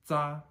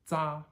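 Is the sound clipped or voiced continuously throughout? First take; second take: clipped; clipped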